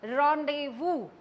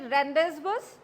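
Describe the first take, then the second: First: The z and s are silent. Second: Every letter is sounded as spelled. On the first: The speaker calls it right. "it should be pronounced as rendezvous" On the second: The speaker calls it wrong. "Do you call this to be rendezvous? No"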